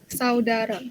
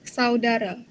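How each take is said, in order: Both takes have the same delivery.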